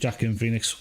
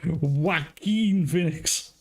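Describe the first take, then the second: First: The first name begins with a J sound. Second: The first name begins with a W sound. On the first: The speaker calls it wrong. "I still call him Jackin Phoenix" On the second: The speaker calls it right. "It's pronounced Joaquin"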